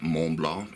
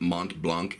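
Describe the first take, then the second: First: It is said with a French pronunciation. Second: It is said with an American English pronunciation. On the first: "in the French fashion" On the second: "I've been pronouncing it Mont Blanc"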